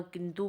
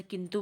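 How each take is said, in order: First: किंतु mispronounced as kintoo; किंतु with a long "oo" ending; long final U. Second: Said in the usual way. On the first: Shown as a demonstration. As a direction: lengthen the last vowel of किंतु. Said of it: "बड़ा ऊ किंतु बोल देते हैं". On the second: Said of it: "छोटा ऊ को बड़ा ऊ".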